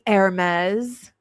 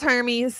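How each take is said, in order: First: It is pronounced like the clothing brand name. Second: It is pronounced unlike the clothing brand name. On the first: The clothing brand is meant. The speaker calls it wrong. "do you pronounce it like the uh, clothing line, the expensive clothing" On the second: The dog's own name is meant. The speaker calls it right. "no, it's Hermes"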